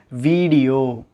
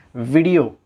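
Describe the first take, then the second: First: வீடியோ with a long VEE; mispronounced video. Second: வீடியோ with a short VI; correct video. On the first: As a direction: stretch the first syllable: VEEE-di-yo in வீடியோ. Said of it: "அப்படி உச்சரிக்க கூடாது". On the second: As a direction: clip the first vowel: VIH-di-yo in வீடியோ. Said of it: "உண்மையான உச்சரிப்பு தன்மை". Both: Shown as a demonstration.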